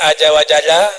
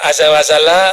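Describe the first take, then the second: First: The z sounds are said as j sounds. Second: The z sounds are said as clear z sounds. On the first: "Orang baca aja wajala" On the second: "ada azza wazala sama aja"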